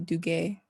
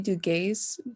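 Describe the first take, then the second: First: The name is pronounced the French way. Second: The name is pronounced the English way. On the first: This follows the name's French origin. "since it's French, you probably say" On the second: This is how the speaker personally says it. "I say"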